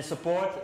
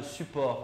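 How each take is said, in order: First: "support" said the English way, sə-PORT; English vowels in "support". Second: "support" said the French way, sy-POR with a French r; French vowels in "support". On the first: ("support" à l'anglaise, sə-PORT) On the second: ("support" à la française, sy-POR, r français) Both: Shown as a demonstration. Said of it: "c'est pas le support".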